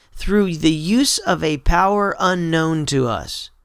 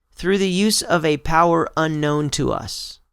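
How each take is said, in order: The two takes are said the same way.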